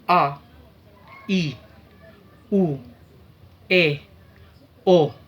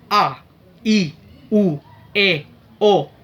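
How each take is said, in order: First: The vowels are spoken slowly. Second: The vowels are spoken very fast. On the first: "dengan speed atau kecepatan yang lambat" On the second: "dengan kecepatan yang sangat tinggi"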